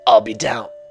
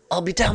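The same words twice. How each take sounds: First: The voice is pitched too deep. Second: The voice is pitched higher, less deep. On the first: The speaker calls it wrong. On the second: The speaker calls it right.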